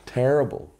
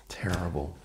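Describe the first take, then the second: First: Louder groan. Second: Quiet groan. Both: Real, not acted.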